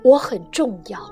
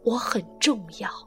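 First: It is said a little louder. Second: It is said quietly, almost to oneself.

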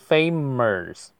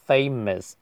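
First: The vowel is said with a curled-tongue r sound. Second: The vowel is said plainly without any r sound. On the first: The speaker calls it wrong. "不要读成famous" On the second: The speaker calls it right. "没有r 就不能卷舌"

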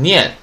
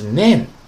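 First: The word is pronounced like nian. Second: The word is pronounced like nen. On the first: The speaker calls it wrong. "不要读成念，不是念啊" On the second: The speaker calls it right. "是nan"

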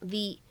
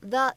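First: The word is said in a full, stressed form. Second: The word is said in a weak, unstressed form. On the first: The speaker calls it right. "应该读成the。它此时呢应该是一个重读的发音" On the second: The speaker calls it wrong. "它不能读成the"

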